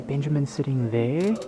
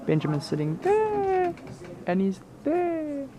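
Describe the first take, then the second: First: Said in the usual way. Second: Much higher, playful repeat; high excited. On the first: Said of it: "we gotta whisper". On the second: Real, not acted. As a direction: say it again, way up high.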